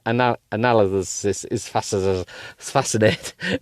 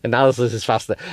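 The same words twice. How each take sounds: First: Slow stumbling read. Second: Fast, laughing retake; quick retake. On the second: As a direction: rattle it off quickly. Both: Real, not acted.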